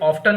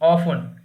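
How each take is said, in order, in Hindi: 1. t की आवाज़ बीच में बोली जाती है। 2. t की आवाज़ पूरी तरह छोड़ दी जाती है। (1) "इसे ऑफ्टन नहीं बोलेंगे" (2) "टी साइलेंट है यहाँ पर"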